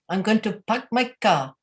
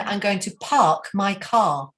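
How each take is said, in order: First: The vowels in park and car are short. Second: The vowels in park and car are long. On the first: The speaker calls it wrong. "you're shortening the vowel too much. ... So you wouldn't say" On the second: The speaker calls it right. "You need to lengthen the vowel. ... So you say"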